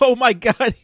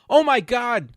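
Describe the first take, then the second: First: It is said in a laughing, light tone. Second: It is said in a serious, upset tone. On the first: The dubbed voice does not match the scene. The speaker calls it wrong. "like trying to be laughing when it's a serious scene" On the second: The original actor reacts to a real tragedy. The speaker calls it right. "here's here's the original one"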